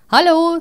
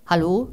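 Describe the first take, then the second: First: High, loud, cheeky kangaroo hello. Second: Said in the usual way. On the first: Acted. Kangaroo greets the stunned neighbour at his door, high and loud. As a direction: pop out a bright, pushy greeting.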